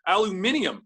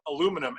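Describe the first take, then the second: First: It is said with five syllables, alu-mi-ni-um. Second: It is said with four syllables, alu-mi-num.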